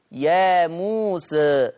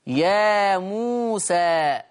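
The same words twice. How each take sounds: First: Slow يا موسى with the final alif tilted toward e; يا موسى with a half-raised a; taqlil reading. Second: Very slow يا موسى ending on an open a; يا موسى with a plain open a; fath reading. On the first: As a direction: recite يا موسى with a slight lean toward e. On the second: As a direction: draw out يا موسى with a clean fath. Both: Shown as a demonstration. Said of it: "بالفتح والتقليل".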